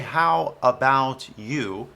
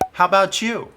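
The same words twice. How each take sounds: First: The t and you are joined with a y sound. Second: The t and you blend into a ch sound. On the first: The speaker calls it wrong. "Don't say" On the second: The speaker calls it right. "That's not a Y sound, it's a ch"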